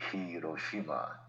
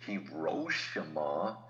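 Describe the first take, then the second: First: Hiroshima even, no stress on shi, falling; correct emphasis. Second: Hiroshima slow, stress on shi, rising at the end; wrong emphasis. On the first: Host showing right stress, even Hiroshima. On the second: Host showing wrong stress, slow Hiroshima. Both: Shown as a demonstration. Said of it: "is the wrong emphasis".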